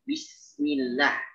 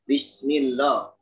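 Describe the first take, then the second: First: The l sound in Allah is light and thin. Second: The l sound in Allah is heavy and thick. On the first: The speaker calls it right. "tapi Bismillah itu tipis" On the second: The speaker calls it wrong. "bukan Bismillah, lo, lo itu tebal"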